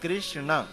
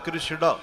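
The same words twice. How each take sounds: First: The final consonant sounds like a nasal n. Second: The final consonant sounds like a d. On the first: The speaker calls it right. "कृष्ण भी नहीं है" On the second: The speaker calls it wrong. "कुछ लोग णकार को डकार बोलते"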